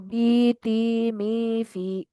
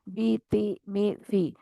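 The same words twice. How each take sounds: First: Each vowel is drawn out long. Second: Each vowel is kept short. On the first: The speaker calls it wrong. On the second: The speaker calls it right.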